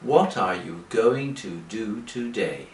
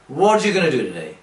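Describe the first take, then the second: First: The sentence is spoken slowly with each word separate. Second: The sentence is spoken very fast and run together. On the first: This is how learners hear it in lessons. "But English people don't speak like that" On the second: This is how native speakers really talk. "they are speaking very fast"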